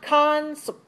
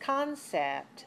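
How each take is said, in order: First: The second vowel is a reduced uh sound. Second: The second vowel is a clear eh sound. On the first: The speaker calls it wrong. "It's not the sound uh. It's not concept" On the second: The speaker calls it right. "It's the sound eh"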